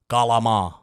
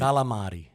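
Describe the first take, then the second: First: It is said in an Italian-American pronunciation. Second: It is said in a standard Italian pronunciation. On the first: The speaker calls it wrong. "it's the Italian-American way" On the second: The speaker calls it right. "How do you pronounce that, Pete?"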